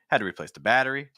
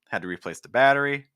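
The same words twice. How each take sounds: The two takes are said the same way.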